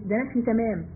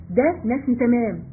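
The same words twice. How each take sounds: First: Said in the usual way. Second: Slow teacher's emphasis on "ده نفي تمام"; slow emphatic restatement. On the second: Shown as a demonstration. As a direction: drill "ده نفي تمام" deliberately, stressing ده.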